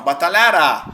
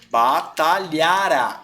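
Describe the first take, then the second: First: "batalhará" with the stress on the final "rá"; "batalhará" ending on a stressed "rá"; stressed on last syllable. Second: Drawn-out "Batalhara" that leans on the "la"; stressed on second-to-last syllable. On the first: Teacher to Geni contrasting the wrong form, final stress. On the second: Teacher to Geni, slow model pronunciation. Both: Shown as a demonstration. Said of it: "e não batalhará".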